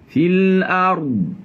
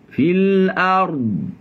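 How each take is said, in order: Both takes have the same delivery.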